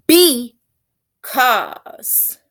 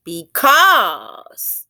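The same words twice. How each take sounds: First: "Because" with BE punched high and loud, then a gap; stress on first syllable. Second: "Because" with CAUSE loud, drawn out and falling; quick light "be", then a long, punched CAUSE in "Because"; stress on last syllable. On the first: Teacher demonstrating dactylic rhythm, "Because" stressed on BE. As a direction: break "Because" in two, hitting BE hard. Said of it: "the emphasis on the first syllable". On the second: Teacher testing the other emphasis, "Because" stressed on CAUSE. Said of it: "last syllable as the syllable that would be emphasized".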